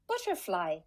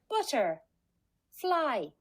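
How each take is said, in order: First: It is said quickly, as one smooth word. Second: It is said slowly, split into two parts.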